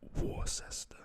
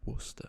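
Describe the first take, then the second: First: Every letter is sounded as it is spelled. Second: It is said in a shortened form. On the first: "spelled Worcester" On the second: "it's said Worcester"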